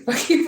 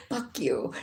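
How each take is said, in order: First: Higher and louder, laughing mock curse; playful mock shout; hammed-up yell. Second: A low, muttered-down retold curse; understated retold anger; mild mock anger. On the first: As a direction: blurt it out as a joke, rising at the end. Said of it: "He didn't say". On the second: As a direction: drop it off low like a grudge. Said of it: "he was mad".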